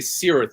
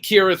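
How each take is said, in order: First: The name starts with a soft S sound. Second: The name starts with a hard K sound. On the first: This is how the band says the name. "the band themselves say" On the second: This is how the name should be said. "It should be ... the Celtic C that should be a hard K"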